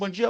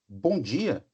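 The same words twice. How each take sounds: First: It is said quickly and offhandedly. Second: It is said slowly and attentively.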